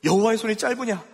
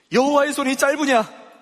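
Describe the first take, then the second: First: Said in the usual way. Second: 여호와의 손이 짧으냐 raised higher and louder, falling at the end; booming challenge, higher and louder; emphatic rhetorical question. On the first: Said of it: "repeated quietly". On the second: Acted. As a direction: press the question hard at the congregation. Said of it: "여호와께서 모세에게 이르시되".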